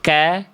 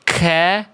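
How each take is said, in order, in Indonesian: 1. Bunyi k hanya disertai hembusan napas yang ringan. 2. Bunyi k disertai hembusan napas yang kuat dan berlebihan. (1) "dibacanya cukup ka, ki, ku" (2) "Tidak dibaca ka, ki, ku"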